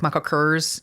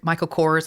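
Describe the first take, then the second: First: "Michael Kors" with Kors squashed toward "curse"; mom's Southern pronunciation. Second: Said in the usual way. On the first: Retold or imitated. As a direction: say "Michael Kors" with Kors rhyming near "furs". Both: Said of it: "she pronounced things like".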